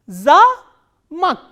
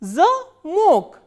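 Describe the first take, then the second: First: The stress is on the first syllable. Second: The stress is on the second syllable. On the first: It means a castle. "this a is stressed and o is unstressed" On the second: It means a lock. "stress has shifted to on the vowel o"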